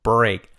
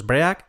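First: "Break" as one syllable, "brayk"; correct pronunciation. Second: "break" said Spanish-style, e and a sounded apart; wrong pronunciation. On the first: Teacher modelling the word for learners, correct "Break". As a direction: say "Break" with a clean ay glide. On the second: Teacher warning learners off the error, mispronounced "break". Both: Shown as a demonstration. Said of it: "Cuidado con los break".

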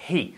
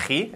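First: "He" with a soft, aspirated English H; soft breathy onset on "He". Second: "he" with a harsh Spanish jota; Spanish-style H. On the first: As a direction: breathe out the H in "He", no throat scrape. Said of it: "aspirada, que no sea". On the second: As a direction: say "he" with a raspy throat H, as Spaniards do. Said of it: "que no sea he, eso es típico". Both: Shown as a demonstration.

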